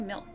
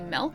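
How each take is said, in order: First: The vowel sounds like an I. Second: The vowel sounds like an E. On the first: This is how the speaker says it. "I say it with an I" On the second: This is how someone else says it. "like it has an E instead of I's"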